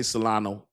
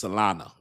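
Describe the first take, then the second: First: "Solana" ending in an OH sound; own accented pronunciation. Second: "Solana" ending in an UH sound; corrected pronunciation. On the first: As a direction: say "Solana" as so-LAH-noh. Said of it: "this is my accent". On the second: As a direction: say "Solana" as so-LAH-nuh. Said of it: "when I say Solana, it's Solana". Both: Shown as a demonstration.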